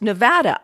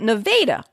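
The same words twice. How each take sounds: First: It is said like the name of the state. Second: It is said in the local Iowan way. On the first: "like you would pronounce the state of the same name" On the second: "but Nevada"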